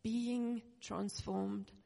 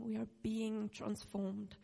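First: "Being" stretched very slowly before "transformed"; stress on being. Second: "being" drawn out and slow in "we are being transformed"; stress on being. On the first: Preacher asking the church to repeat "being transformed". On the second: Preacher stressing "being" to the congregation. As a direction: lean on "being" slowly. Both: Shown as a demonstration. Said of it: "Can you just say that?".

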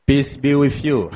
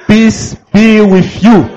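First: Soft, low-key greeting to the congregation; gentle murmured blessing. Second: Higher, louder blessing called out to the room; raised voice calling out the blessing; louder greeting. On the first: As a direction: say it softly, almost to yourself. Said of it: "tell them". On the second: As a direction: lift it up so the church hears. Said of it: "I said, "Stand up". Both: Shown as a demonstration.

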